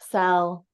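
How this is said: The word is said flat and neutral. "I'm just going to say it with neutrality"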